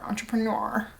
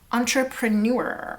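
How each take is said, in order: First: "entrepreneur" ending in "nor"; alternate pronunciation. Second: "Entrepreneur" ending in a drawn-out "newer"; exaggerated pronunciation. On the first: Second, different way of saying it. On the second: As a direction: say "Entrepreneur" slow and high, as on-truh-pruh-NEW-er. Says the word two different ways. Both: Shown as a demonstration.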